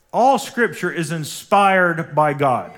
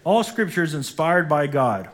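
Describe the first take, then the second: First: "All scripture is inspired by God" slower, louder, every word leaned on; slow emphatic repeat. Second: Said in the usual way. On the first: Real, not acted. Pastor repeating "All scripture is inspired by God" to the church, slow and louder. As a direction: drive "All scripture is inspired by God" home slowly and forcefully. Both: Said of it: "everybody say".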